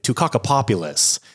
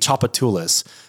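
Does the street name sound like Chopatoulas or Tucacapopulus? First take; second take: Tucacapopulus; Chopatoulas. First: The name is said with six syllables, starting 'tuck'. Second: The name is said with four short syllables. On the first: An outsider guessed the name from its spelling. The speaker calls it wrong. "he pronounced it Tucacapopulus" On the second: This is how locals say the street name. The speaker calls it right. "there's a very, very important street in the city"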